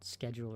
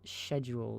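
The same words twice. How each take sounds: First: It is pronounced with an American accent. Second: It is pronounced with a British accent. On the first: "rather than" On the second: "the British British isms"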